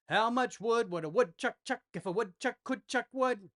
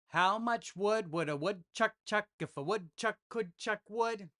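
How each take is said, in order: First: It is said at a medium pace. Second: It is said at a slow pace.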